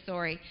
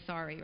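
First: Sorry said with a rounded oh vowel, like sore-y; Canadian sorry, sorry as soar-ee; sorry with the rounded Canadian vowel, not the open ah. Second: Sorry said with an open ah vowel, like sarry; American sorry, sorry as sah-ree; sorry with the open American ah, not the Canadian oh. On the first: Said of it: "We say sorry". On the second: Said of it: "It's really sorry". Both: Shown as a demonstration.

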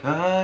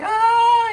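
First: Higher sung tenor ah; sung, tenor note. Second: High, loud sung soprano note; sung, belt a high soprano ah. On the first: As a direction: sing a short tenor ah. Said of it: "he went into a tenor like". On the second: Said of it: "a soprano was like". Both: Shown as a demonstration.

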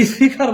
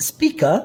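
First: স্পিকার as "s-phi-khar", with puffs of air; wrong aspirated P. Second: স্পিকার as "spee-ka", p with no puff; unaspirated P after S. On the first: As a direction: breathe out hard on the p of স্পিকার. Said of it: "স্পিকার বলা যাবে না". (স্পিকার, প-কে ফ-এর মতো মহাপ্রাণ করে) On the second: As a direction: keep the p of স্পিকার dry after the s. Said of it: "প, ট, ক উচ্চারণ করবেন". (স্পিকার, স-এর পরে অল্পপ্রাণ প) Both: Shown as a demonstration.

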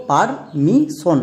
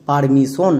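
First: permission slowly in parts, par... mi... shon; syllable by syllable. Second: Said in the usual way. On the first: Shown as a demonstration. Teacher shows a new example, permission slowly syllable by syllable. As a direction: break permission into separate, drawn-out syllables. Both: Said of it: "যেমন দেখো".

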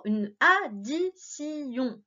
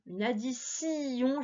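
First: Slow, each syllable of "addition" pulled apart. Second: Said in the usual way. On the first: Shown as a demonstration. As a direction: stretch "addition" into clear syllables. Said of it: "Une addition, j'entends si". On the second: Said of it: "j'entends si".

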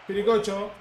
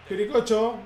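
No difference in how they are said.

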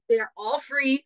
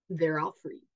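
First: They're all free with free hit louder and higher; emphatic repeat. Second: Said in the usual way. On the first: Shown as a demonstration. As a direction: stress free, loud and high, insisting. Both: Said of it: "I'm telling you".

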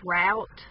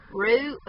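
First: "route" said "rowt". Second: "route" said "root". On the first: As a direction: say "route" to rhyme with out. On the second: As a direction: say "route" to rhyme with boot. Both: Shown as a demonstration. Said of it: "or it's route".

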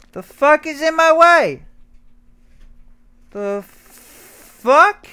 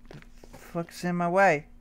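First: Louder, higher annoyed question; frustrated outburst. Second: Said in the usual way. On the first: Real, not acted. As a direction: snap at what blocks you. Blocked in game, repeats louder.

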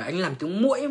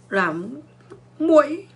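First: Said in the usual way. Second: A mock mosquito squeak on muỗi; mosquito whine. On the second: Shown as a demonstration.

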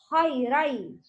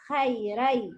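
First: خيري with heavy خ and ر; teacher models خيرا; correct خيرا. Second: خيري with thin letters; teacher shows the wrong خيرا. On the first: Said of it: "Ra and kha is heavy letter". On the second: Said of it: "Not خيري". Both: Shown as a demonstration.

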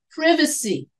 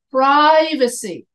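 First: PRIVACY with a short i, as in "privet"; British pronunciation. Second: PRIVACY with a long i, "PRY-vacy", stretched and louder; American pronunciation. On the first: Teacher showing the class how British English says it, short-i PRIVACY. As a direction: say PRIVACY the British way, short first vowel "priv-". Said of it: "In British English". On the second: Teacher showing the class how American English says it, long-i PRIVACY. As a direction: hit PRIVACY slowly with first syllable like "pry". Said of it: "In American English". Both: Shown as a demonstration.

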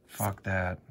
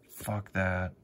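No difference in how they are said.

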